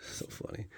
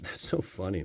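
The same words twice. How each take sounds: First: Breathy whispered repeat of "So funny."; whispered echo. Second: Said in the usual way. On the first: Shown as a demonstration. Chuckling at his own joke, whispering "So funny." to himself.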